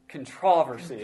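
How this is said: It is said in a British way. The speaker calls it right. "how do they say it across the pond?"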